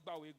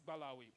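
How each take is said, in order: First: The name is said with two syllables. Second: The name is said with three syllables. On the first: This is the everyday modern form of the name. "Today we call it Bawe" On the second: This is the original form of the name. "the truth and the real pronunciation is Balawe"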